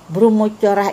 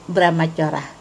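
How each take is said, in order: First: The first two vowels sound like o. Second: The first two vowels sound like a. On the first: The speaker calls it wrong. "Bromocorah itu salah" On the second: The speaker calls it right. "Seharusnya brahmacorah"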